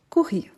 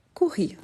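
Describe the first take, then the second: First: Courir said crisply, ending on a falling tune; clear model of courir. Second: Said in the usual way. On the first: Shown as a demonstration. Teacher repeats Courir for learners to copy.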